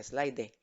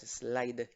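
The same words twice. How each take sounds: First: "slide" wrongly ending in a Spanish "eh", slai-deh; final E voiced. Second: "slide" ending on a clean d, no vowel after it; silent final E. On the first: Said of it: "La E no se pronuncia, sino sería". ("slide" con la e final: slai-de) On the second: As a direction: stop "slide" on the d, leaving the E mute. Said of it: "Es slide". ("slide" con la e final muda) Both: Shown as a demonstration.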